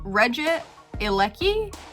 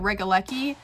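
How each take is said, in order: First: The name starts with 'Regi', then a separate 'elecki'. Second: The name starts with 'Rega', blended into 'lecki'. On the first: The speaker calls it right. "but I think it's Regi, Regi Ilecki" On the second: The speaker calls it wrong. "think I said Regalecki"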